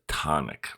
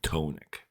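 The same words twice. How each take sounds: First: The first vowel is a short O sound. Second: The first vowel is a long O sound. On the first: The speaker calls it right. "That's how you pronounce it" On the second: The speaker calls it wrong. "the same long O sounding tonic"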